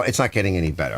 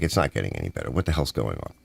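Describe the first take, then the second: First: Said in the usual way. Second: Low exasperated mutter. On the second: Retold or imitated. Retold exasperated thought, lower.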